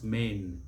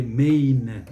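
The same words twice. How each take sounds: First: Main short and softer; one compact syllable for main; correct pronunciation. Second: Main loud and drawn out, "may-een"; mispronunciation. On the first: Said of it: "it's main". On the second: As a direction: stretch main out slowly. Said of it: "We don't say main". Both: Shown as a demonstration.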